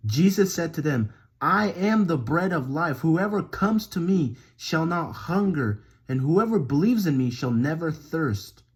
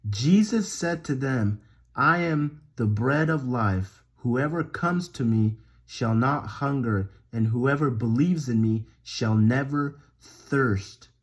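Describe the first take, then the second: First: Emphatic verse reading with lively rises; scripture reading. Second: Slow, measured scripture reading; slow verse repetition. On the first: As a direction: read it out with momentum and punch. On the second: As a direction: lay each phrase down slowly to be memorized. Slow repeat to be memorized. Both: Acted.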